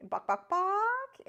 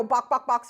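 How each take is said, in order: First: Very high, slow, stretched buck-buck; drawn-out bird call. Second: Short, loud clucking bird call; quick bird clucks. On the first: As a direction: hold each buck out as long as you can, up high. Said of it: "hold that out". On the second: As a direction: fire off the buck-buck quickly, bird-style. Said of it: "and we'll just go". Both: Retold or imitated.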